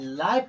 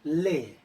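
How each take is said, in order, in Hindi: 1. स्वर 'buy' में 'eye' की तरह बोला जाता है। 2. स्वर 'day' में 'ay' की तरह बोला जाता है। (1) "लाई पढ़ते हैं तो क्या होगा, गलत होगा" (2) "इस वर्ड को हम क्या पढ़ेंगे, ले"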